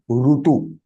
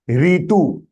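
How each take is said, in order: First: The first syllable is pronounced ru. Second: The first syllable is pronounced ri. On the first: The speaker calls it right. "In Sanskritam, it is rutu, short one" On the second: The speaker calls it wrong. "Ritu is a wrong uh, sound of it"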